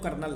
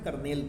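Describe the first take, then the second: First: The word ends with a short 'nal' sound. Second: The word ends with a clear 'nel' sound. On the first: "आप कहोगे sir ये तो कर्नल है" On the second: "कर्नेल पढ़ते हैं"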